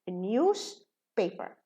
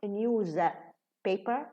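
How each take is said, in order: First: The middle sound is a voiceless s. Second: The middle sound is a voiced z. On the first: The speaker calls it right. "we reduce the za and becomes sa" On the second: The speaker calls it wrong. "It's not news paper"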